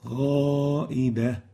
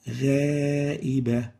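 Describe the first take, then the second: First: The alif vowel is heavy and full. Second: The alif vowel is light and thin. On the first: The speaker calls it right. "where we're supposed to say" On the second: The speaker calls it wrong. "we attenuate the alif, we make tarqiq in the place where we should fillerize the alif"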